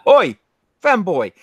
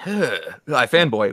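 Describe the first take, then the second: First: Loud, high rough London accent calling out; rough British accent. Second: Slow, refined posh British accent; upper-crust British accent. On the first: A working-class British greeting, loud and brash. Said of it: "only one particular class of British". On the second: The upper-class British version of the greeting. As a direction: drawl it like British nobility. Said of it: "that's more upper crust". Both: Shown as a demonstration.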